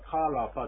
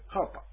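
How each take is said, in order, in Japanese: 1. rの後ろにしっかりした母音があります。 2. rの後ろに母音をつけずに言います。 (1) "カラパじゃなくて" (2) "R の発音ですね"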